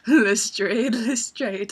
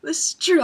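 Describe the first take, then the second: First: "Lestrade" said as "le-STRAYED", questioning then falling; joke pronunciation. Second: Said in the usual way. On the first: Retold or imitated. Teasing about the panel's Lestrade, "Lestrade" mispronounced with a long AY. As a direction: say "Lestrade" with a long AY, loud at first.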